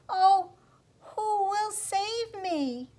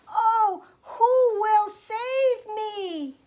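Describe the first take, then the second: First: It is said slightly louder than quiet. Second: It is said as loudly as possible.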